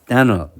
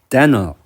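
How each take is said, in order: No difference in how they are said.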